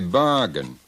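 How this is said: The R sound after the first vowel is dropped. "they don't stress their R's. They say bargain"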